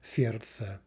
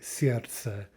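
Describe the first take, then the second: No difference in how they are said.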